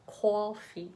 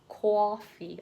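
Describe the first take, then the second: First: The first vowel is a rounded 'aw' sound. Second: The same.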